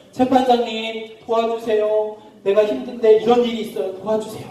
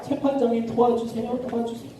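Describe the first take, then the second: First: Pleading widow. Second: High, soft, repeated begging; persistent pleading. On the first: Poor widow asking the judge for help, pleading. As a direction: stretch the appeal out imploringly. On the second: Widow returning daily to the judge, insistent soft plea. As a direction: beg over and over, fading away. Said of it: "하루가 멀다 하고 매일 찾아가는". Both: Acted.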